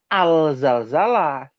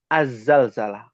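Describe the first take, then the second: First: The article is pronounced with a clear l sound. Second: The article's l merges into a doubled z sound. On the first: The speaker calls it wrong. "Bukan al-zalzalah" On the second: The speaker calls it right. "Yang betul az-zalzalah"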